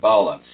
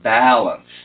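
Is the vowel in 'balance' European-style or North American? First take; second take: European; North American. First: The first vowel has a European quality. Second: The first vowel has a North American quality. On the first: The speaker calls it wrong. "your European pronunciation" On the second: The speaker calls it right. "Those are number sixes"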